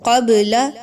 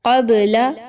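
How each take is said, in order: Both takes have the same delivery.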